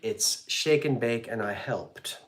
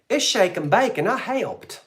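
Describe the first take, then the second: First: It is said without the put-on accent. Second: It is said in a put-on accent. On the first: The speaker calls it wrong. "I didn't say that with the right accent" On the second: The speaker calls it right. "Wasn't that from the old commercial?"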